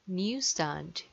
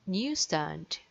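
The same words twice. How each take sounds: The two takes are said the same way.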